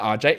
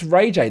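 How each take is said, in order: First: The name is said as two letter names. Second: The name starts with the word 'Ray'. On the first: The speaker calls it wrong. "It's not R J" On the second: The speaker calls it right. "it's [name]"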